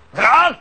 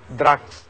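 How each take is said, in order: First: The word is said at a louder volume. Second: The word is said at a quieter volume.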